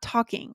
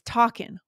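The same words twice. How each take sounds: First: The final g sound is pronounced. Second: The final g sound is dropped. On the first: "Why not talking?" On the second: "I want to make sure we talk about here is talking"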